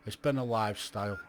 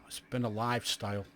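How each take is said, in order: Both takes have the same delivery.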